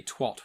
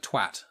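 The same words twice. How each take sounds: First: "twat" with an O-like vowel, as twot; American pronunciation. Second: Said in the usual way. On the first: Shown as a demonstration. British speaker showing how Americans say "twat", vowel like hot. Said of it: "and Americans say". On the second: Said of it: "Americans say it wrong, but the word".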